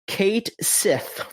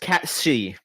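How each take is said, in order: First: It sounds like 'Kate Sith', two separate syllables. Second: It sounds like 'Catshi', run together with 'sh'. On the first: The speaker calls it wrong. "its name is going to be pronounced Kate Sith in the game" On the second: The speaker calls it right. "It is pronounced Catshi"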